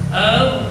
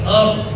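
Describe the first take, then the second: First: The opening vowel is said heavy and thick. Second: The opening vowel is said light and thin. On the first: The speaker calls it wrong. "tidak boleh dibaca ar" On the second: The speaker calls it right. "hamzah wasalnya dibaca tipis"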